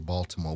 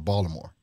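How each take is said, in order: First: It is said in a standard, non-local accent. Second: It is said in a local Baltimore accent.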